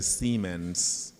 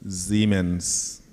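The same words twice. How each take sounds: First: The name is said with an American pronunciation. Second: The name is said with a German pronunciation. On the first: "Americans say Siemens" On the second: "the Germans say Siemens"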